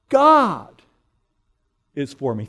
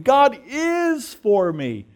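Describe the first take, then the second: First: The word 'God' is stressed. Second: The word 'is' is stressed. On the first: It is God himself who is on my side. "You put the emphasis on each word in turn. So first you say" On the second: It is certain that God is on my side. "There's no doubt about it. I'm absolutely certain"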